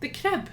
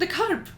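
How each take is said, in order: First: "crib" said the Dundonian way, r before the vowel; high-pitched "crib" with short Scots vowel; local Dundonian pronunciation. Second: "curb" said the posh standard way, vowel before the r; high, careful "curb" in standard form; posh pronunciation. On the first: Friend asking what you call the kerb, "crib" in Dundonian. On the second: Dundonian repeating her friend's word, "curb" said poshly. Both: Shown as a demonstration. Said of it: "it's so posh".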